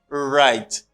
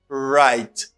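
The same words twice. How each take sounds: No difference in how they are said.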